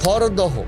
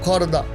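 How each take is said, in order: First: The name ends with an audible h syllable. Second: The name ends in a plain open vowel. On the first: This is how it is written on signs. "লেখা আছে" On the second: This is how people actually say it. "উচ্চারণ আলাদা"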